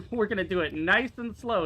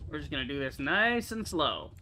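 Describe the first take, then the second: First: A little louder, talking himself calm; steady, coaxing himself through it; careful unhurried voice. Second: Careful unhurried voice. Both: Real, not acted. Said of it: "is what I say".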